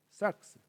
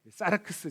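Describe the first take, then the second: First: The word is short with no added vowels. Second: Extra vowels are inserted between the consonants. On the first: The speaker calls it right. "그냥 삭스라고 발음하는데" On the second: The speaker calls it wrong. "이게 일본식 발음입니다"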